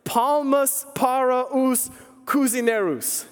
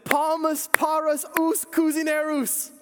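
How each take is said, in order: First: Slow, deliberate "Palmas para os cozinheiros" in Portuguese; quoting the phrase slowly as the missionary taught it; careful Portuguese phrase. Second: High, slow shouted "Palmas para os cozinheiros"; mock shout. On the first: Retold or imitated. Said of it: "in Portuguese". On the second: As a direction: call out "Palmas para os cozinheiros" high and drawn out, like yelling it across the table. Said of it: "I shouted out".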